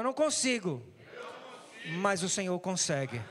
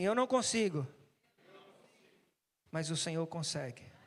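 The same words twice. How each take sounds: First: It is said more forcefully, with conviction. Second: It is said in a calmer, plainer way.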